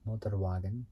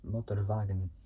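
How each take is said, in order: First: The 'w' is said as an English w sound. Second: The 'w' is said as a v sound. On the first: The speaker calls it wrong. "it might look like it's pronounced Motorwagen" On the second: The speaker calls it right. "they like pronounce it with a V instead of a W"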